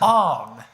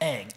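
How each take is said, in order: First: The name is said with a back 'o' vowel. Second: The name is said with a front 'a' vowel. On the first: This is how the name is said in the movie. The speaker calls it wrong. "You know what they say in the movie?" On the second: This is how the name is said in the TV show. The speaker calls it right. "everybody pronounces it Aang in the T V show"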